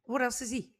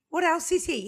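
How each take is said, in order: First: Said in the usual way. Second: Mock-amazed cohost pushing for more; higher excited repeat. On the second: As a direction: pitch jumps up, louder and amazed. Piling up guest's credits.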